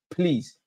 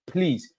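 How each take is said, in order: Both takes have the same delivery.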